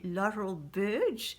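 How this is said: The name is said with English pronunciation. "en anglais"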